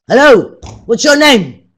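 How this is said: It is said in an angry, harsh tone. "what about if you're angry?"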